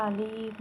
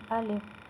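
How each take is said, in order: First: الف with the first vowel stretched long; drawn-out wrong take. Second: الف short, with no stretched vowel; said quickly. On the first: Teacher showing what not to do, الف dragged long. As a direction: stretch out the opening of الف slowly. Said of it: "اسے لمبا نہیں کرنا". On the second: Teacher showing the correct reading, الف kept short and quick. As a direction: say الف briefly, without lengthening it. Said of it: "اسے جلدی پڑھنا ہے". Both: Shown as a demonstration.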